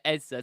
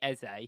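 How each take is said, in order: First: The name is said in an anglicized way. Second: The name is said in the Nigerian way. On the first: It is adapted to sound more English. "he's saying it Ezza to try and make it more English" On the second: It follows the name's original language. "actually it's Eze"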